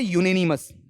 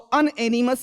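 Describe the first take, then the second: First: The word begins with a 'yoo' sound. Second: The word begins with an 'un' sound. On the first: The speaker calls it right. "इसका pronunciation भी याद होना चाहिए" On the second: The speaker calls it wrong. "Sound copy नहीं करोगे"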